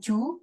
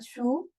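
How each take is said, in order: First: It begins with a j sound. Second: It begins with an s sound. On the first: "bukan ju" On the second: "bukan su"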